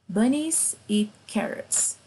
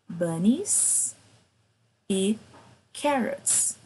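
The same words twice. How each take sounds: First: It is said fast. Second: It is said slowly.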